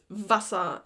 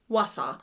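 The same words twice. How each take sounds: First: The word starts with a V sound. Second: The word starts with a W sound. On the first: The speaker calls it right. "the W in German is more like a V in English" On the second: The speaker calls it wrong. "and not"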